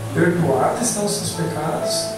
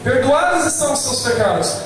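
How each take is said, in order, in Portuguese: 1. Ela é dita como uma pergunta, com tom de dúvida. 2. Ela é dita como uma afirmação firme. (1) "Ele só mudou a entonação de voz para te confundir" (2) "Quando fala assim"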